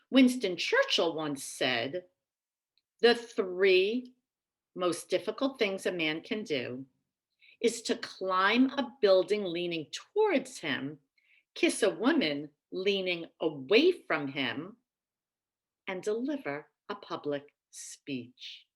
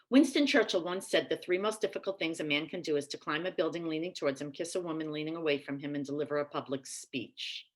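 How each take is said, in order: First: The quote is said slowly, with pauses. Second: The quote is said fast, without pauses.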